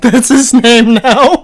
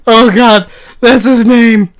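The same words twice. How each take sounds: First: Slow high laughing words. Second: High loud laughing exclaim. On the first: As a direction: wheeze it out through laughter. Laughing repeat of joke. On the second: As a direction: crack up while shouting it. Laughing delight at joke. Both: Real, not acted.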